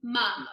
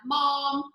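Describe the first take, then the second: First: "mum" with a short uh vowel; right vowel. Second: "mom" with an open ah vowel, the wrong way. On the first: Teacher shows students the correct vowel, short uh. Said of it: "M U M". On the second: Teacher shows students the wrong way, open ah vowel. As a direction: say "mom" with a long open ah as the mistake. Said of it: "not mom". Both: Shown as a demonstration.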